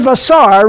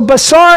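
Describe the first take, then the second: First: The word begins with a V sound. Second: The word begins with a B sound. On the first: "it's a vet. It's the V sound" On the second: "One has a little dot in it to make it a bet"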